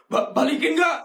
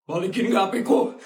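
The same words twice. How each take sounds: First: Higher, urgent demand stammered out; insist, getting upset. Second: Said in the usual way. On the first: Acted. Kid demands phone back.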